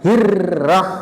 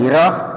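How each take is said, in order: First: The r sound is pressed and held longer. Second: The r sound is short and light. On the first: The speaker calls it right. "ditekan dulu" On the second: The speaker calls it wrong. "nggak boleh"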